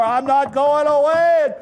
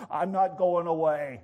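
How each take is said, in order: First: Loud, high defiant shout; emphatic refusal at full volume; raised voice. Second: Said in the usual way. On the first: Acted. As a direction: holler it stubbornly at the door. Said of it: "Raises his voice, knocks harder".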